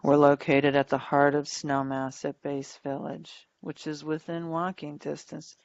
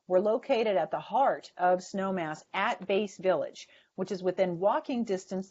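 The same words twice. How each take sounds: First: Flat delivery with no words emphasized. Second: Lively delivery with certain words emphasized. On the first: The speaker sounds lifeless. The speaker calls it wrong. "it sounds like I'm half dead" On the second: The speaker sounds engaged and likable. The speaker calls it right. "I'm emphasizing certain words"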